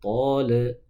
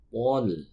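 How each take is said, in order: First: The final 'l' bounces with an added vowel. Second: The final 'l' stops cleanly without a vowel. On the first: The speaker calls it wrong. "lam tidak boleh dipantulkan" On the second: The speaker calls it right. "tapi yang betul"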